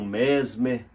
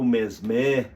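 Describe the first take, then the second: First: The name is said without a French pronunciation. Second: The name is said with a French pronunciation.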